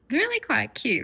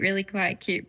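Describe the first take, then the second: First: High gushing cute. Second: Said in the usual way. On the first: Shown as a demonstration.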